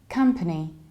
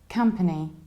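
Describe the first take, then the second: First: The first syllable sounds like 'come', reduced middle vowel. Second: The same.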